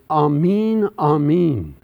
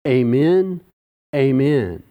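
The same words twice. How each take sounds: First: "Amen" said AH-men with an open ah; "Amen, Amen" as ah-meen, the Hebrew way; both "Amen" with a broad ah to start. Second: "Amen" said AY-men, the way we say it today; "amen" opening on a long ay sound; everyday AY-men for both words; modern amen. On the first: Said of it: "it sounds in the English ... like it does in the Hebrew". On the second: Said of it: "as we would say it today". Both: Shown as a demonstration.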